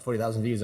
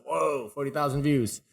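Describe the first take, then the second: First: Said in the usual way. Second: Impressed, a touch higher; mildly wowed at the number; amazed. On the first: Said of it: "So I was like". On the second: Retold or imitated. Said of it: "I felt like that was a lot".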